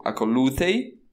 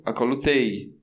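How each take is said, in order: First: "acolutei" with the stress pulled one syllable back, rising at the end; in "acolutei" hit the syllable before the last; imperative stress. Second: "acolutei" stressed on the final "tei", falling away; in "acolutei" land on the last syllable and drop; indicative stress. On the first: Teacher sounding the imperative "acolutei" with the accent jumped back. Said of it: "Então, no imperativo". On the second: Teacher sounding the indicative "acolutei", accent on the final diphthong. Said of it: "no indicativo". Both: Shown as a demonstration.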